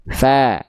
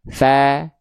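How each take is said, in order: Both takes have the same delivery.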